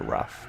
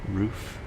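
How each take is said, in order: First: The vowel is short, like in 'rough'. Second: The vowel is long, like in 'roof'. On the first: The speaker calls it wrong. "as a kid, I just called it Rough" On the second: The speaker calls it right. "I think that's how you say it, right? It's like Roof"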